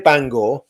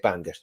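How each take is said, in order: First: The name is said the local Northern Irish way. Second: The name is said the English way. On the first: "as all the posh Bangorians would call it" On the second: "because I'm English, I say Bangor"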